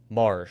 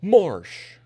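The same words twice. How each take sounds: First: It is said in a plain, flat way. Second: It is said with more enthusiasm and energy.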